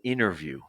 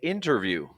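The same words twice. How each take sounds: First: The t after the n is dropped. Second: The t after the n is pronounced. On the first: "It's just very common or prevalent to hear interview" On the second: "Some people might say interview. It's not really wrong"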